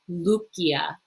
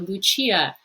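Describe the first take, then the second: First: The c is said as a hard k. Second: The c is said as a soft sound. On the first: This is the Latin pronunciation. The speaker calls it right. "In Latin, this is going to be Lucia" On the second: This is the Italian-style pronunciation. The speaker calls it wrong. "that's more Italian"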